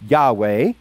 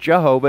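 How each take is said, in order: First: The name is pronounced YAH-weh. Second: The name is pronounced jeh-HO-vah. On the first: The speaker calls it right. "it's actually Yahweh" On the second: The speaker calls it wrong. "or Jehovah"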